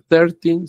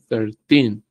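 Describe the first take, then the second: First: The stress is on the first syllable. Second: The stress is on the last syllable. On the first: The speaker calls it wrong. "no es trece" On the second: The speaker calls it right. "el enfoque está trece, ... sino trece"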